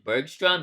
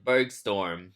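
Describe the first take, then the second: First: The name ends with the sound 'strom'. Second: The name ends with the sound 'storm'. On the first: The speaker calls it right. "It's actually Austin Bergstrom because there's an R" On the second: The speaker calls it wrong. "that's the incorrect pronunciation of that airport"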